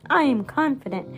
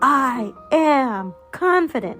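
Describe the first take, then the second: First: It is said at a softer volume. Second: It is said at a louder volume.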